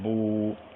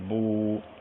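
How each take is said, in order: First: The vowel is a fully rounded 'oo' sound. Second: The vowel is a fully rounded 'oo' sound.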